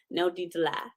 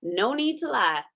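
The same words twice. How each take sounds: First: "No need to lie" echoed, softer and lower; softer repeat. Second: Said in the usual way. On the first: Shown as a demonstration. Repeating "No need to lie" to the audience, softer. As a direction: let the echo drop softly.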